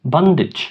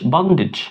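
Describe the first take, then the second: No difference in how they are said.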